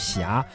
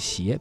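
First: The word is pronounced xia. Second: The word is pronounced xie. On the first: This is the original reading in the poem. "在诗中本该读霞" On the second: This is the current official reading. "现在是这么读的"

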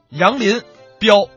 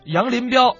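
First: It is said in a Northeastern dialect manner. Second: It is said as one plain three-syllable name. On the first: It says the person named Yang Lin is reckless. The speaker calls it wrong. "咱说的不是东北话啊" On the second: It is simply a three-character personal name. The speaker calls it right. "人家叫杨林彪"

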